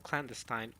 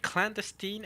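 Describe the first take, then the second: First: Clandestine ending in "-stine"; expected pronunciation. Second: Clandestine ending in "-steen"; questioned pronunciation. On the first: Streamer asking for clandestine ending "-stine". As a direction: say clandestine to rhyme with wine. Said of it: "and not clandestine". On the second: Streamer complaining about clandestine ending "-steen". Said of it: "The pronunciations are not consistent". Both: Shown as a demonstration.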